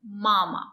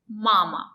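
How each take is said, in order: Both takes have the same delivery.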